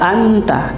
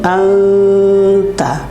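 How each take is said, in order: First: The n is pronounced fully and clearly. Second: The n is hidden in a nasal sound. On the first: The speaker calls it wrong. "ini tidak boleh dibaca anta" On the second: The speaker calls it right. "tapi anta"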